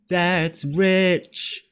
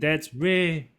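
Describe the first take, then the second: First: The final 'ch' sound is clearly pronounced. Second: The word fades out without the final 'ch'. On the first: The speaker calls it right. "when you bring in the the ch, it it gives it more edge" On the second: The speaker calls it wrong. "it's not just fading out like that's re"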